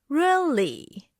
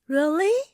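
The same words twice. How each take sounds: First: The pitch is deep and low. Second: The pitch rises at the end. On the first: The speaker doubts something. "With a deep and a lower pitch" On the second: The speaker is unsure. "With a rising pitch"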